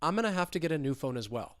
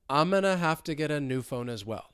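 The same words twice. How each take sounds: First: The sentence is spoken at normal speed. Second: The sentence is spoken slowly. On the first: "let's speed it up" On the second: "So slowly"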